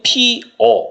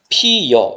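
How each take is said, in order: First: No glide is inserted before the final vowel. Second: A y-glide is inserted before the final vowel. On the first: This is the standard pronunciation. "원래 원칙은 피어 이렇게 발음하는 게 원칙입니다" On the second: This is the permitted variant pronunciation. "반모음 이가 어를 만나서 ... 여가 된 겁니다. ... 이건 허용이 되는 거예요"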